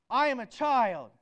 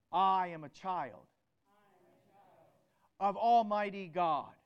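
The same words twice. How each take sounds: First: Much louder, rousing declaration; with enthusiasm. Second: Said in the usual way. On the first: Shown as a demonstration. Preacher leading the congregation in a declaration, loud and enthusiastic. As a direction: proclaim it with full enthusiasm. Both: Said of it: "Now let's do it with some enthusiasm".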